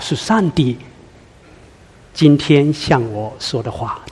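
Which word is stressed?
上帝. The word 上帝 carries the emphasis. It is God who is speaking.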